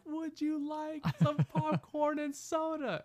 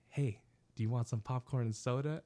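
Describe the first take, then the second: First: Mock shout. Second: Said in the usual way. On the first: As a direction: shout it slowly across a theater. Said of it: "I just kinda shout". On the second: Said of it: "I'm like".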